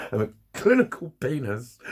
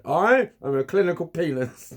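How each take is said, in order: First: Said in the usual way. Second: Slow, higher proud announcement of "I am a clinical penis"; slogan read out. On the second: Pretend. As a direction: declaim it like a t-shirt slogan. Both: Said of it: "get that put on a t-shirt".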